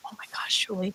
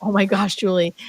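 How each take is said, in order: First: Soft whispered wonder; awed whisper. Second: Voiced, a touch louder, delighted; joyful exclaim. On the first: Retold or imitated. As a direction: whisper it, overwhelmed by joy. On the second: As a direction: let the joy burst out. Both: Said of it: "he just kept going".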